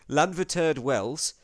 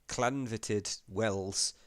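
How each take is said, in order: First: The name begins with a plain L sound. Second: The name begins with a cl-like sound. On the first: "going to woefully mince, mispronounce" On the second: "Is it a double L? Because that's a cl"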